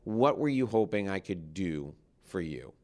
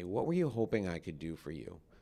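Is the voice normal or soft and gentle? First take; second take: normal; soft. First: The voice is at a normal speaking level. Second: The voice is quiet, soft and gentle.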